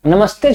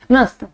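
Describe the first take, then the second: First: Said in the usual way. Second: नमस्ते cut down to a quick, higher "nast"; shortened greeting. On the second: Retold or imitated. Mimicking fast modern kids, नमस्ते clipped to "nast". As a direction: swallow the "ma" and the ending of नमस्ते. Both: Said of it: "नमस्ते छोड़ दीजिए".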